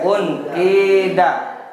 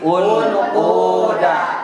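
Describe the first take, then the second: First: The vowel before d is a pure i. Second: The vowel before d is a pure u. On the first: "Pertama dibaca kasroh" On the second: "Yang kedua dibaca dom doma"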